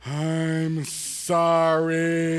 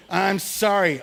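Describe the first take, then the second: First: Slow, drawn-out apology with a long pause before sorry; sincere sorry. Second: Tossed-off apology, no feeling behind it; half-hearted sorry. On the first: Boy told to mean it, now a drawn-out earnest sorry. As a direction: lean into it like you truly mean it. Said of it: "say it like you mean it, like you're actually sorry". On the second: Boy tossing a quick sorry at his brother, half-hearted. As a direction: say sorry just to get it over with. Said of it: "say it like you mean it". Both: Retold or imitated.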